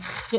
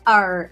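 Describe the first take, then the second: First: The R is a guttural sound from the throat. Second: The R is a curled, American-style retroflex sound. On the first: The speaker calls it right. "é R de rato" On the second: The speaker calls it wrong. "não é R"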